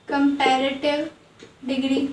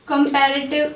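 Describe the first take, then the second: First: Comparative stretched out very slowly, ending on a rise; slow careful repeat. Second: Said in the usual way. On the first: Shown as a demonstration. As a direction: spell it out slowly for the class. (धीरे-धीरे खींचकर, अंत में उठता सुर) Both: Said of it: "teacher repeats the term".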